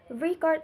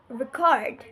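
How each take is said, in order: First: Record said as the noun, REC-ord; slow record with the first syllable stressed. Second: Record said as the verb, re-CORD; slow record with the second syllable stressed. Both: Shown as a demonstration. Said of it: "stress can distinguish word meaning".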